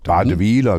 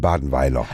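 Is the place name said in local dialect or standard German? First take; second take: dialect; standard. First: The name is said in the local dialect. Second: The name is said in standard German.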